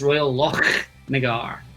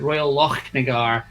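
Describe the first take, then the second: First: The ch is a rasping sound in the throat. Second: The ch is a plain sound without throat rasp. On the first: "you'll start to do this thing at the back of your throat" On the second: "You don't have to do that. You can just do the Royal Lochnagar"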